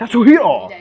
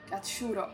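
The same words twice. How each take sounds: First: The name is said with strong emphasis on hiro. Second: The name is said plainly, without emphasis on hiro. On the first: The speaker calls it right. "Ci devi mettere l'enfasi" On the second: The speaker calls it wrong. "altrimenti italianizzi troppo e non va bene"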